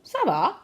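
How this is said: The pitch falls at the end, like a statement. It says things are okay. "it's okay"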